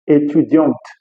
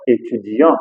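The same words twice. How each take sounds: First: Étudiante said with the final t; étudiante with the t sounded; wrong way. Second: Étudiant said with a silent t; étudiant ending on the nasal vowel; correct French. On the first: Teacher shows the wrong étudiante. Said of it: "Eu não vou falar". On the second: Teacher shows the right étudiant. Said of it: "Eu vou falar étudiant". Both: Shown as a demonstration.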